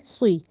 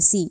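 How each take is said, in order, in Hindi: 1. s की आवाज़ मोटी है, होंठ गोल हैं। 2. s की आवाज़ पतली है, होंठ फैले हुए हैं। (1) "सी नहीं सुई" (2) "इसको सीन की साउंड सी नहीं कहेंगे"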